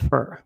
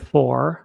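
First: The word has a weak, reduced vowel. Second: The word has a full 'or' vowel. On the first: "a fur, bo jest to tak zwane słowo funkcyjne" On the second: "Nie for"

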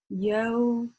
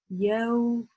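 No difference in how they are said.

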